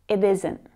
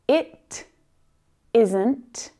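First: The phrase is said at normal speed. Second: The phrase is said slowly and deliberately.

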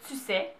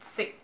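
First: Both words are said fully and separately. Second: The words are squeezed together into a shortened form. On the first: This is the standard form. "au lieu de dire" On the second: This is the Quebec way of saying it. "il y a des Québécois qui vont dire"

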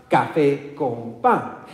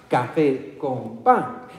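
Both takes have the same delivery.

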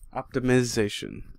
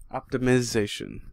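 First: The I syllable carries only light stress. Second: The I syllable carries only light stress.

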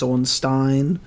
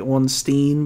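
First: The last syllable sounds like 'stine'. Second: The last syllable sounds like 'steen'. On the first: The speaker calls it right. "but it's Ornstein because it's not double E-N, it's E-I-N" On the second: The speaker calls it wrong. "We say Ornstein"

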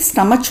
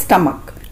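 First: The word ends with a 'ch' sound. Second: The word ends with a 'k' sound. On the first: The speaker calls it wrong. "कुछ लोग इसे स्टमच बोलते हैं" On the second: The speaker calls it right. "इसका सही उच्चारण यानी कि सही प्रोनंसिएशन है स्टमक"

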